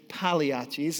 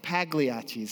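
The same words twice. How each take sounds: First: The G sound is silent in the name. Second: The G sound is pronounced in the name. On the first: The speaker calls it right. "the G is silent in Pagliacci's. It's Pagliacci's" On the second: The speaker calls it wrong. "It's not Pagliacci's"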